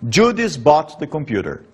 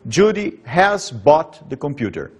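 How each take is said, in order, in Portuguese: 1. O auxiliar é contraído e ligado a 'Judy'. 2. O auxiliar 'has' é dito como palavra completa. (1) "esse has normalmente diminui, condensa com Judy, faz a contração" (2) "normalmente em inglês escrito"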